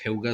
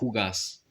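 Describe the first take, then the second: First: The first vowel is the diphthong 'eu'. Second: The first vowel is a plain 'ou'. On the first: This is the speaker's own way of saying it. "moi je dirais Heugas" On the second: This is how the locals say it. "avec un ou et pas avec la diphtongue eu"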